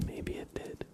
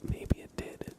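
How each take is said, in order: Both takes have the same delivery.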